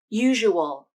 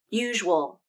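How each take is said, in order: First: The word is said with three full syllables. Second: The word is said with two syllables. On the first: "Usual can be three syllables" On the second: "Usual can be pronounced as two syllables"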